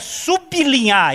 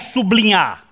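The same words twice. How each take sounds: First: The b is split from the l. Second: The b is joined with the l. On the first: The speaker calls it right. "como também é sublinhar" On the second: The speaker calls it wrong. "e não sublinhar"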